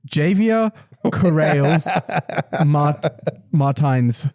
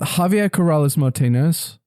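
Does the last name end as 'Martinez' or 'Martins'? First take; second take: Martins; Martinez. First: The surname is shortened and pronounced as Martins. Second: The surname is pronounced in full as Martinez. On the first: The speaker calls it wrong. "now do it the Joel way" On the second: The speaker calls it right. "Try to do it right"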